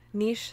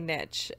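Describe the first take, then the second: First: The word ends with a 'sh' sound. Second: The word ends with a 'tch' sound. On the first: "Niche certainly sounds fancier" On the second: "I always say niche, and I know that that's wrong"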